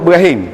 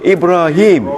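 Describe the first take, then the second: First: The name is said with local Terengganu pronunciation. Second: The name is said with Arabic pronunciation. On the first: The speaker calls it wrong. "Jangan sebut Ibrahim. Orang Terengganu Ibrahim je" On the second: The speaker calls it right. "Ibrahim tu kena sebut betul"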